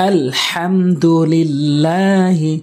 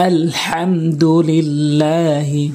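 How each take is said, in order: No difference in how they are said.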